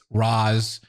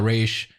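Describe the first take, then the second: First: The name sounds like 'roz'. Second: The name sounds like 'raysh'. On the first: The speaker calls it right. "it's Roz" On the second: The speaker calls it wrong. "it's not Raish"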